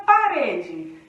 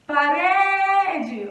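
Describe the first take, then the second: First: Said in the usual way. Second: Loud call with a long "re" in "Parede"; calling out the word. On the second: Shown as a demonstration. Teacher demonstrating the strong syllable, loud stretched call. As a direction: call "Parede", holding the middle "re". Calls the word to find stress.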